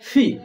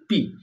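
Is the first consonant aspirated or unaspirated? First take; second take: aspirated; unaspirated. First: The first consonant is aspirated. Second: The first consonant is unaspirated. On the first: The speaker calls it right. "আমরা উচ্চারণ করব ফি" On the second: The speaker calls it wrong. "পি না"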